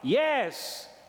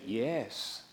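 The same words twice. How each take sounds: First: It is said a little louder. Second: It is said at normal, softer volume.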